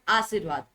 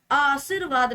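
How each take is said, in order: First: Said in the usual way. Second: आशीर्वाद with the opening आ stretched; rejected pronunciation. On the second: Shown as a demonstration. Teacher rejects a wrong option, stretched आशीर्वाद. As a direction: draw out the first vowel of आशीर्वाद. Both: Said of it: "आशीर्वाद नहीं".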